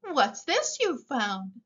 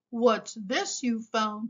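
First: Said in the usual way. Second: Slow, lightly growled Daddy Bear; a touch of a big bear's growl; mild growl. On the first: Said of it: "asked Giant Mama Bear". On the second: A narrator's reading. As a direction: ask it slowly with a slight growl. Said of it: "he growled".

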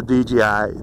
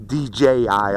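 First: D J I slurred with a Pittsburgh accent. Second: Said in the usual way. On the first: Real, not acted. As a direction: let a Pittsburgh accent slip into D J I. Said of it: "that's my Pittsburgh accent". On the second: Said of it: "I'm sorry, folks".

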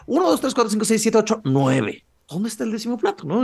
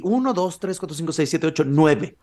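First: High-pitched rapid count, dropping on the last; anxious recount. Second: Said in the usual way. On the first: Acted. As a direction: count it over in a higher, worried voice. Anxious recount after finding one missing.

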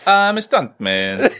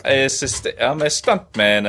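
First: Higher, very slow mock Spanish accent; exaggerated, high-pitched bad Spanish accent; botched Spanish accent. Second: Attempted Spanish accent, slowly; Spanish accent, drawn out in your usual pitch; thick Spanish accent. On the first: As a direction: drag out a Spanish accent that slips towards Viking. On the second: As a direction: put on a rough Spanish accent. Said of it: "Thick, thick Spanish accent". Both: Shown as a demonstration.

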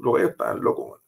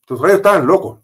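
First: Breathy whisper, almost to himself; whispered repeat. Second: Louder and higher, outraged; indignant outburst. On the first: Officer repeating it to the interviewer in a stunned whisper. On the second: Officer recalling the cheering crowd, indignant and loud. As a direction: spit it out in disbelief. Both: Real, not acted.

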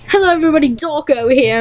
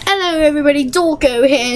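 First: Said in the usual way. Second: Mock British YouTuber intro; British accent. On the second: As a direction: put on a light British accent. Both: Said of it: "I had to pop out my British accent".

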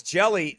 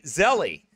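First: Said in the usual way. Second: "Zelly" with a z sound for the j; daughter's mispronunciation. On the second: Retold or imitated. Dad quoting his daughter's word for jelly, "Zelly" with a z. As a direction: say "Zelly" like a small child getting jelly wrong. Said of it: "Charity calls jelly Zelly".

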